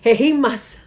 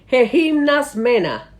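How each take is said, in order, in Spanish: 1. La palabra se dice a un ritmo normal, más rápido. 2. La palabra se dice lenta y deliberadamente.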